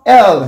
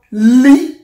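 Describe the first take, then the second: First: L said slowly as "el"; vowel first for L, a drawn-out "el"; English L. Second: L said slowly as "lee"; Yoruba L. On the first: Teacher shows English letter name, slow L as "el". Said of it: "It sound L here". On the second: Teacher shows Yoruba letter name, slow L as "lee". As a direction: consonant first for L, a drawn-out "lee". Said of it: "It is sound L here". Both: Shown as a demonstration.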